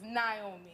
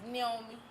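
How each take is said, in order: First: "Naomi" said nay-OH-mee, American style; American name pronunciation. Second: "Naomi" said as nee-OH-mee, Ni-omi; name pronounced properly. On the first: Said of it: "the American pronunciation is". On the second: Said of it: "the way it's pronounced is". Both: Shown as a demonstration.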